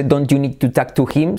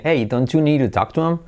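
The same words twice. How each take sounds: First: "talk to him" with the H sounded; full form. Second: "talk to him" run together as talk-tu-em; linked form. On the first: Teacher shows form before linking, fully sounded. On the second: Teacher shows what it becomes, linked. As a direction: link DON'T YOU NEED TO TALK TO HIM, dropping the H. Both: Shown as a demonstration. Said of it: "se convierte en".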